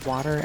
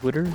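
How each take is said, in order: First: It is said as standard 'water'. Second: It is said in a regional way, as 'wooder'.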